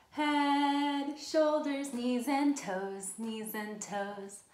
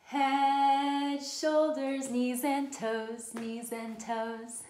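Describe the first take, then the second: No difference in how they are said.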